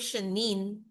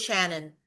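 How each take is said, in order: First: The last syllable sounds like 'nine'. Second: The last syllable sounds like 'non'. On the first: Family members say it this way. The speaker calls it wrong. "iba yung stress nila sa vowel sounds ng name ko" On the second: This is how the name is meant to be said. The speaker calls it right. "Please say Shannon"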